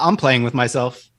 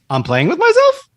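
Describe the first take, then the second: First: The voice falls at the end. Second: The voice rises at the end.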